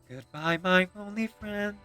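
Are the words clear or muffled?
clear. The words are projected outward and clearly articulated. The speaker calls it right. "project outward and can actually open my lips"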